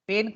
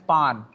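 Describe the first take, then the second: First: It is said like English 'pain', rhyming with 'rain'. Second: It is said with a nasal 'an' vowel, like 'pan'. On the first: "पेन को ऐसे नहीं बोलते जो हम लोग बोलते" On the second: "अब मैं इसका फ्रेंच प्रोनाउंसिएशन बोलने जा रहा हूं"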